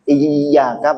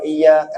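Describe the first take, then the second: First: The y sound is doubled and held long. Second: The y sound is single and short. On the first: Only to you, God, we worship. The speaker calls it right. "iyyaka pakai tasydid" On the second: To you, sunlight, we worship. The speaker calls it wrong. "kan enggak pakai tasydid"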